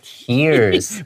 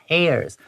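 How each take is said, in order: First: The vowel rhymes with the word ear. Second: The vowel rhymes with the word air. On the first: Drops from crying eyes. "流眼泪的，你会说 tears" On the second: Small rips in the muscle. "A I R above tears"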